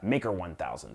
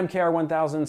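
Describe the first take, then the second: First: The name is said as the word maker. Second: The name is spelled out letter by letter. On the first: The speaker calls it right. "It's pronounced Maker 1000" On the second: The speaker calls it wrong. "Not MKR 1000"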